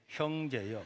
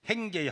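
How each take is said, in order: First: The first vowel sounds like 'eo'. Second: The first vowel sounds like 'ae'. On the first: The speaker calls it right. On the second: The speaker calls it wrong.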